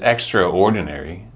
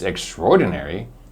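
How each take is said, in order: First: The 'tror' syllable is not strongly stressed. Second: The 'tror' syllable is strongly stressed. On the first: The thing is simple and plain. "that means that it's simple and plain" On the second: The thing is absolutely fantastic. "we pronounce the tror with a lot of stress"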